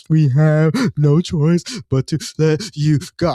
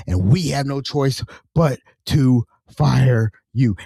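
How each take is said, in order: First: Slow, sobbing, halting delivery; mock crying. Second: Slow, word-by-word dismissal, weight on "we"; imitated firm boss. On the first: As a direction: break up the words with pretend sobs. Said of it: "I'm crying with". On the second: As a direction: deliver the firing deliberately, spacing out "fire" and "you". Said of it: "She kept saying, We, we".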